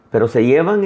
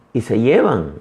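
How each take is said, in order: First: "llevan" más fuerte y con subida; stress on llevan. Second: Said in the usual way. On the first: Acted. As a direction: remarca la palabra "llevan" subiendo el tono. (énfasis en "llevan", más fuerte y subiendo)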